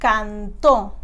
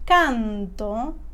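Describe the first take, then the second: First: The stress is on the last syllable. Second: The stress is on the first syllable. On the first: He sang, in the past. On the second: I sing, in the present.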